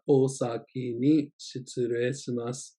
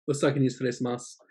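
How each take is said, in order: First: "Osaki ni shitsurei shimasu" said slowly and clearly; slow it down for learners; careful teacher demo; slow model take. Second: "Osaki ni shitsurei shimasu" rattled off fast; quick everyday office goodbye; native-speed demo; fast natural take. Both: Shown as a demonstration. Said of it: "natural then slow demo".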